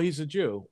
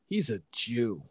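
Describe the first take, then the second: First: It is said in a plain, neutral tone. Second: It is said with a sneering, contemptuous tone. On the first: It simply states what someone is. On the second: It turns the word into a slur.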